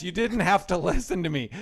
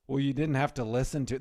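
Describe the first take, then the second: First: Laughing retelling. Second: Said in the usual way. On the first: Retold or imitated. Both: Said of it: "that was her defense".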